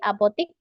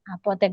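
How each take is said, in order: First: The last syllable has an I vowel. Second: The last syllable has an E vowel. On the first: The speaker calls it wrong. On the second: The speaker calls it right.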